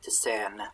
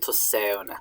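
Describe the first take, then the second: First: The vowel is said as a plain e. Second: The vowel is said as a gliding diphthong. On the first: This is the Northumbrian form. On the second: This is the form used outside Northumbrian.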